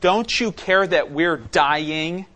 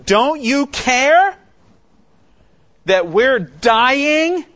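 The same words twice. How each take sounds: First: Panicked plea, slowed down. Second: High, loud, slow accusing cry; accusing shout. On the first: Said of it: "this is how they say it". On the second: Disciples confronting sleeping Jesus in the storm, a loud accusing cry. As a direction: fling the accusation at him, drawn out and desperate. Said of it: "really confront him with an accusation". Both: Retold or imitated.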